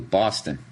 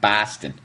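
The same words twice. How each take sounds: First: The first vowel is a broad, drawn 'aw'. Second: The first vowel is a plain, unbroadened sound. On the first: The speaker calls it right. "how to properly say Boston. B A W" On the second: The speaker calls it wrong.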